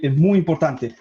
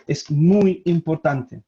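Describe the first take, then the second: First: Said in the usual way. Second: "es muy importante" slowed right down for weight; emphatic. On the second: Real, not acted. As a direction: stretch out "muy importante" slowly and deliberately. Repeats the point slowly for emphasis. ("muy importante" dicho lentamente, con énfasis)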